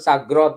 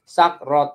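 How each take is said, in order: First: It is said quickly, the two parts run together. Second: It is said slowly, the two parts kept separate. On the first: "Kalau dibaca cepet sagrot gitu loh" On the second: "tapi sebenarnya sagrot"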